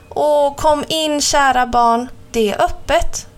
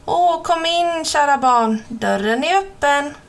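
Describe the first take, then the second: First: Put-on the true grandma invites the girl in; grandma's voice. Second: Higher, odd false granny voice; the wolf straining to pass as grandma; wolf disguised as grandma lures the girl, fake granny voice; wolf faking grandma. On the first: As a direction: play the real grandmother, higher and unhurried. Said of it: "sa mormor". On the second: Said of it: "Vad konstigt hon låter".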